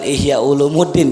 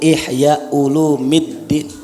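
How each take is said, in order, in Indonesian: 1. Vokal sebelum 'ddin' itu 'u'. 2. Vokal sebelum 'ddin' itu 'i'. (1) "Bukan Ihya Ulumuddin ya. Itu kalau orang bilang baca Ihya Ulumuddin cara bacanya keliru" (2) "Yang betul Ihya Ulumiddin"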